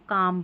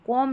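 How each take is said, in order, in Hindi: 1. स्वर खुली 'aa' ध्वनि है। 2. स्वर गोल होंठों वाली 'aw' ध्वनि है। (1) "इसको काम पढ़ेंगे" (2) "कॉम नहीं पढ़ना है"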